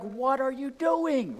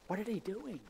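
First: Much higher, slow and drawn out; mock road-rage complaint; exasperated outburst. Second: Higher but much softer, incredulous; quiet puzzled driver; muttered disbelief. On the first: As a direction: let the frustration burst out at the slow car. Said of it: "And you're like". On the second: Retold or imitated. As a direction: mutter it to yourself in the car. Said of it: "you're like".

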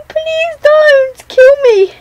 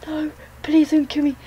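First: High, loud, slow desperate begging; screamed pleading. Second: Said in the usual way. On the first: Real, not acted. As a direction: shriek the plea at the chaser. Begging the seeker while fleeing.

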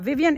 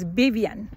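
First: "Vivian" with clear V sounds; English V pronunciation. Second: "Vivian" said with B for V, Bibian; Spanish B pronunciation. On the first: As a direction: say "Vivian" with teeth on lip for each V. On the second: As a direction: start "Vivian" on a B, lips together. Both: Shown as a demonstration. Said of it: "her name is not Vivian".

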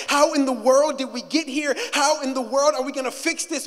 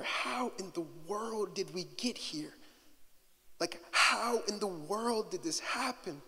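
First: Louder, pressing "How in the world did we get here?"; urgent cry. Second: Soft, much quieter "How in the world did we get here?"; hushed despair. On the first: Preacher voicing the cry again, building. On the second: Quoting a despairing prayer, hushed. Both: Acted.

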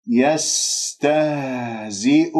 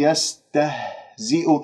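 First: Slow يستهزئ with the h vibrating deep in the throat; voiced deep haa. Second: يستهزئ with an airy h from the lungs; chesty breathy haa. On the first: Teacher models the true haa, slow elongated recitation. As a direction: hold a resonant throat h in يستهزئ. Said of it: "والهاء باهتزاز الأوتار الصوتية". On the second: Teacher shows students the wrong haa, breathy chest h. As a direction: puff the h of يستهزئ as empty breath. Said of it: "هذه هاء صدرية". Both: Shown as a demonstration.

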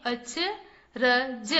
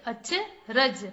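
First: अचरज stretched slowly as अ-च-र-ज; syllable by syllable. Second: Said in the usual way. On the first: Shown as a demonstration. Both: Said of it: "चलिए बच्चों, पढ़ते हैं।".

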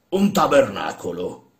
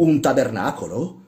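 First: "Un tabernacolo" slow, louder, weighty statement; deliberate announcement. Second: "un tabernacolo" as a higher, rising question; incredulous echo. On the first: Old man ordering "Un tabernacolo", deliberate. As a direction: announce "Un tabernacolo" slowly and firmly. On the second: Workman questioning his master's order, "un tabernacolo" incredulous. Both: Acted.

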